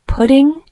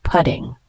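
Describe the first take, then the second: First: Pudding? asked on a high rising tune; quizzing rise. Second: Said in the usual way. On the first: Shown as a demonstration. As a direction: ask pudding? like a teacher quizzing. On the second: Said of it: "It's pronounced pudding".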